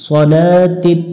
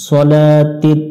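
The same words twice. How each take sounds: Both takes have the same delivery.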